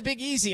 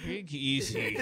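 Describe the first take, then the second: First: Higher, breezy quoted mention; casual name-drop. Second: Low, puzzled mock repeat; baffled echo. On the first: Retold or imitated. Co-host imitating colleague using a nickname, casual. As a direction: toss the nickname in as if everyone knows it. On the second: Co-host retelling his reaction to the nickname, baffled. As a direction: echo the nickname as if it means nothing.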